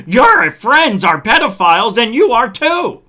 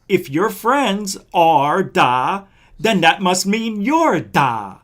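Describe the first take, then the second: First: Loud heated yell, full word out. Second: Slow, deliberate, word bleeped out as da; slow and careful. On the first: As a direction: shout the accusation at him. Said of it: "I didn't mean to yell at you". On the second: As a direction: spell out the logic slowly, censoring himself. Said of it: "I didn't mean to say the whole word". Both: Real, not acted.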